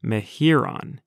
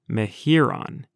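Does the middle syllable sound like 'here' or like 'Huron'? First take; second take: here; here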